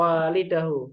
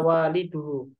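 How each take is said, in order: First: The middle ending vowel is a. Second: The middle ending vowel is u. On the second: "betul? Betul atau salah? Salah"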